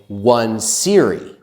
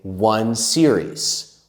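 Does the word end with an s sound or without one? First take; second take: without s; with s. First: The word is said without a final s. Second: The word is said with a final s. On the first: The speaker calls it wrong. "we don't say one series" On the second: The speaker calls it right. "We say one series. We always have the S"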